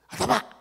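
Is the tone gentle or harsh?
harsh. It is said in a harsh voice.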